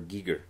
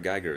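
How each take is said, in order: First: The name is said unlike 'Geiger counter'. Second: The name is said like 'Geiger counter'. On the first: The speaker calls it right. "It's H R" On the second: The speaker calls it wrong. "It's also it's not H R"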